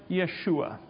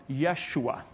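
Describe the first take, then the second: No difference in how they are said.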